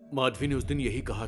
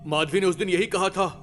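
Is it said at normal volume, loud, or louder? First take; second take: normal; louder. First: It is said at normal volume. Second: It is said even more loudly.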